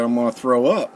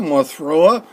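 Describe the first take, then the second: First: Said in the usual way. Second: Louder, higher, desperate retold warning; urgent warning. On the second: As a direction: raise pitch and volume, about to be sick. Repeated warning, now more urgent.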